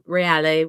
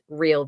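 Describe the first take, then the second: First: It is said the Italian way, with a final vowel. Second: It is said like the English word real. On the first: This is the original Italian form of the name. "it is an Italian name, so Reale works" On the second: This form matches a business name as a play on words. "I just say Real because the name of the business is Real Voices"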